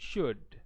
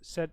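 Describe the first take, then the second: First: The vowel is full, like 'shood'. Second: The vowel is reduced to a weak sound. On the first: It tells someone strictly what to do. "அந்த ஷுட் வந்துட்டு strong form" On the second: It states an expectation that was not met. "இப்போ நாங்கள் இதில் வந்துட்டு ஷுட் என்று சொல்லி சொல்கிறதில்ல"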